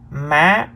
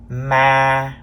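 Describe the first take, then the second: First: The pitch starts high and rises. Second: The pitch stays level at mid height. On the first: "The third tone is the high rising tone" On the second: "This is the mid-level tone, or sometimes we call it the flat tone"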